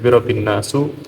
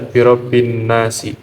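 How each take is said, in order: First: The last word ends with a 'u' vowel. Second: The last word ends with an 'i' vowel. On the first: The speaker calls it wrong. "tidak bisa dibaca birobin nasu" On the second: The speaker calls it right. "harus dibaca birobin nasi"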